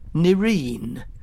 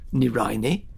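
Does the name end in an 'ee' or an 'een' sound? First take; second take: een; ee. First: It has two syllables, ending rhyming with Doreen. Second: It has three syllables, ending in an 'ee' sound. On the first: It sounds ordinary and common. "the more often-used Nirine. This moniker's more akin to Doreen and Maureen" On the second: It sounds elegant and exotic. "I've always called Nirini"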